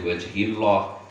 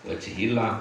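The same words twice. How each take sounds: First: The 'l' is pronounced heavy and thick. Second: The 'l' is pronounced light and thin. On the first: The speaker calls it wrong. "ora oleh" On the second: The speaker calls it right. "jatuh setelah harokat kasrah harus dibaca tipis"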